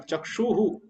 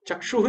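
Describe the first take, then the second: First: It ends with an echoed 'hu' sound. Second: It ends in a bare h sound. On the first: The speaker calls it right. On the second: The speaker calls it wrong.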